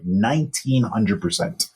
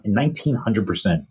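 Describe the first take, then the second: First: Nineteen hundred percent said slow, every word weighted; slow, stressed repeat of "nineteen hundred percent"; slow emphatic. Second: Said in the usual way. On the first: Real, not acted. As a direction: lean on "nineteen hundred percent" to drive it home. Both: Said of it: "You heard it right".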